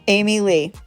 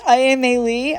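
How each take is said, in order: First: The name sounds like 'Amy Lee', three syllables. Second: The name sounds like 'I-am-a-Lee', five syllables. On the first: This is how someone else pronounces it. "someone told me how they pronounce it" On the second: This is how the speaker thinks it is pronounced. "I think it's"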